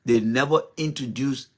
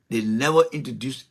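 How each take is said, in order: Both takes have the same delivery.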